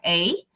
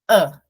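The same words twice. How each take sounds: First: The vowel is a full 'ay' sound. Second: The vowel is a weak, short 'uh' sound. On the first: The article is said on its own. "a letra A, que é a" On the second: The article is said inside a sentence. "De schwa"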